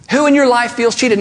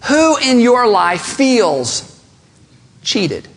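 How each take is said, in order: First: Said in the usual way. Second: Very slow, with a long pause before cheated; slow dramatic question. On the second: Shown as a demonstration. Preacher to congregation, slow weighty pause before "cheated".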